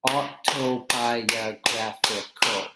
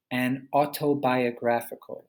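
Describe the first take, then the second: First: Autobiographical drawn out slowly beat by beat; slow syllable clapping. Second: Said in the usual way. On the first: Shown as a demonstration. Teacher claps out autobiographical slowly for students. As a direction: break autobiographical into slow, separate beats. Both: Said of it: "clapping syllables demo".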